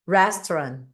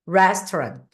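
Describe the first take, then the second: The two takes are said the same way.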